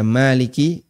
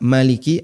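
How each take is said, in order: First: The first vowel of maliki is long. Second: The first vowel of maliki is short. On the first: It means the one who rules and owns. "artinya penguasa" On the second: It means king. "artinya raja"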